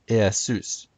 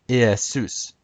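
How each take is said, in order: The two takes are said the same way.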